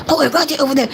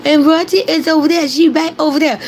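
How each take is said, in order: First: Mean. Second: Higher, matter-of-fact pointing out; not mean. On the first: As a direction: imitate a mean remark, pitched down a little. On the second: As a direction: quote him pointing her out, pitched up without malice. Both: Shown as a demonstration. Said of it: "he didn't say it mean".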